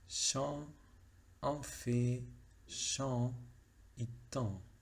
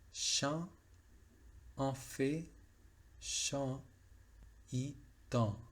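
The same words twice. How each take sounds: First: The vowels are pronounced with nasal resonance. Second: The vowels are pronounced without nasal resonance. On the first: This is the everyday spoken form. "Lo pronuncié, digamos, como si fuera francés eh, oral, francés, francés estándar" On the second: This is the form adapted for classical singing. "adaptado para el canto lírico... no hay nasalidad"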